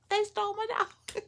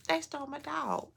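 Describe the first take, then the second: First: Much higher, squeaking it out; squeaky disbelief. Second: Higher, in disbelief; incredulous. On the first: Repeating to the audience, a high astonished squeak. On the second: Telling the audience of the stolen dog, incredulous. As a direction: let the outrage lift the pitch. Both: Real, not acted.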